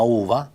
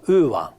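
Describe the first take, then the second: First: Uva con la U italiana; di' uva all'italiana; pronuncia italiana. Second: Uva con la U piemontese turbata; di' uva alla piemontese; pronuncia piemontese. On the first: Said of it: "in italiano scriviamo uva". (uva in italiano) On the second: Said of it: "in piemontese e pronunciamo". (uva in piemontese) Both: Shown as a demonstration.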